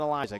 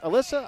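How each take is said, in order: First: The middle consonant is a z sound. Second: The middle consonant is an s sound. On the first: The speaker calls it wrong. "There's no Z in there" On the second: The speaker calls it right. "pronounced Alyssa"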